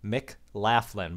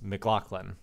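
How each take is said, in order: First: The name is read plainly, just as spelled. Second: The gh gets the Irish sound, not spelling. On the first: The speaker calls it wrong. "it looks like Laughlin" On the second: The speaker calls it right. "but it's McLaughlin because he's he's Irish"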